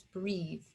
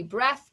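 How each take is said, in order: First: "breathe" with a long "ee" and voiced final th; "breathe" said softly with a long E. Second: "breath" as if there were no final E; short-E breath. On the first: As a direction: stretch the vowel in "breathe", rhyming with seethe. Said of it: "but we have it there". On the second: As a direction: say "breath" to rhyme with death. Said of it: "didn't have the E, it would be breath". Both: Shown as a demonstration.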